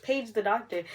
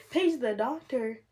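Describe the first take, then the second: First: Said in the usual way. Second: Slow, disbelieving repeat of Page the doctor; incredulous echo. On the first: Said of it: "They're like". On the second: Real, not acted. Mother echoing the nurses' order in slow disbelief. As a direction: Page the doctor said back slowly, stunned.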